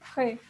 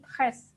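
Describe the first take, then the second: First: The final s sound is silent. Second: The final s sound is pronounced. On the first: The speaker calls it right. "Tapi kita bacanya tre" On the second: The speaker calls it wrong. "kita tidak baca jadi tres, no"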